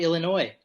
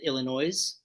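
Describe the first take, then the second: First: The word is said in a plain, ordinary way. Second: The word is said in an imitated pronunciation. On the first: "go Illinois" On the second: "as Jay from uh, Jay and Silent Bob pronounce it"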